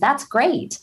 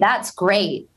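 First: The tone sounds warm and genuinely excited. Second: The tone sounds flat and passive-aggressive. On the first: The speaker is truly pleased. "Where I'm genuine and excited" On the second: The speaker is not really pleased. "it sounds passive aggressive"

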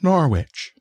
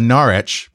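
First: The name is said the local American way. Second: The name is said the usual British way. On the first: "but we pronounce it Norwich" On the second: "We have a Norwich"

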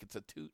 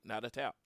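First: The second syllable rhymes with boot. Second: The second syllable rhymes with out. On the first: The speaker calls it right. "it's a toot, not a tout" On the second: The speaker calls it wrong. "y'all Americans try to Americanize it"

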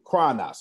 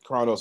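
First: It is pronounced with a Greek pronunciation. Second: It is pronounced with an English pronunciation. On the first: "That's how you say it in Greek" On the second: "Chronos is what you would say in English"

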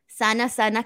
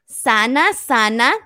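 First: The phrase is said at a normal pace. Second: The phrase is said slowly and deliberately.

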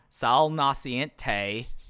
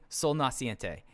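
First: It is said in a Cleveland-Southern accent. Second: It is said in his plain accent.

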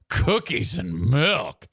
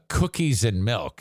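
First: It is said in a scornful, disapproving tone. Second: It is said in a plain, neutral tone. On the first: The speaker is judging the listener. "if you say it with that tone" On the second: The words are harmless. "You could say"

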